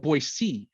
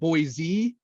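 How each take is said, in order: First: The second syllable has an S sound. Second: The second syllable has a Z sound. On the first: The speaker calls it right. "Boise, C" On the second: The speaker calls it wrong. "if you said Boise, like they're they're coming up to the booth"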